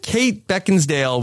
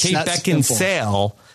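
First: The name is said with a d sound. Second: The name is said without a d sound. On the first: The speaker calls it wrong. "I think I have injected a D into the situation" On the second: The speaker calls it right. "It's Kate Beckinsale"

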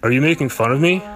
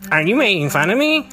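First: It is said in a normal voice. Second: It is said in a funny nerdy voice.

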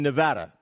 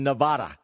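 First: It is said the way residents say it. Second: It is said the way outsiders say it. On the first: This is the pronunciation residents prefer. "people in the state, from the state, apparently prefer the pronunciation Nevada" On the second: This is the pronunciation outsiders use. "People from away frequently and use the pronunciation Nevada"

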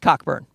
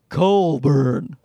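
First: The first syllable is said like 'cock'. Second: The first syllable has no k sound. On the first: The speaker calls it right. "No, it's Cockburn" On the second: The speaker calls it wrong. "The CK is an L sound in Canada"

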